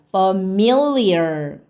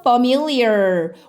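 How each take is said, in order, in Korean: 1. 강세는 두 번째 음절에 있어요. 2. 강세는 첫 번째 음절에 있어요. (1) "여기는 me의 강세가 있어요. ... A를 에라고 발음하면 안 되고 어라고 발음해야 돼요" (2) "fe의 강세가 있다면 familiar이라고 발음하면 되는데"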